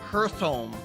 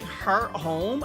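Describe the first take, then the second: First: The first part ends in a th sound. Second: The first part ends in a t sound. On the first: "and then it's also Earth Hearth Home" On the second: "It's like Heart Home"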